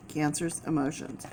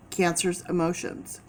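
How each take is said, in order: First: Softer repeat, almost to herself; a hushed repeat of the first take; soft echo. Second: Said in the usual way. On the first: Real, not acted. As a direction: echo the phrase quietly under the breath. Repeating a key phrase softly.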